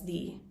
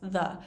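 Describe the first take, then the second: First: The word ends in an 'ee' vowel. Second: The word ends in an 'uh' vowel. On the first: "If the word following has begins with a vowel sound, um, we're going to pronounce it as the" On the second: "if the word that comes after begins with a consonant sound, then we're going to pronounce it as the"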